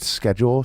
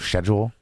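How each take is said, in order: First: Schedule is said in the speaker's usual way. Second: Schedule is said the way some English people say it.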